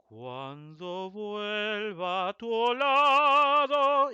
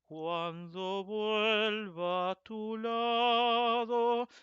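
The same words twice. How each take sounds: First: The pitch jumps very high within the phrase. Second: The pitch stays within a narrow range. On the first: The speaker calls it wrong. "it does not go very high like" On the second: The speaker calls it right. "you don't have in those lines any huge change"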